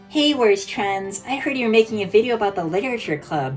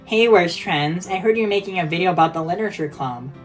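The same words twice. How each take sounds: First: It is said in a distinct put-on character voice. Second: It is said in a barely disguised natural voice. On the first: The speaker calls it right. "That's like in its own distinct voice" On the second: The speaker calls it wrong. "It just sounds bad"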